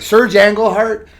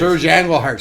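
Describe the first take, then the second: First: "Serge Engelhart" said higher, louder and slowly; emphatic name. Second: Said in the usual way. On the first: Real, not acted. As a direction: lean hard on "Serge Engelhart".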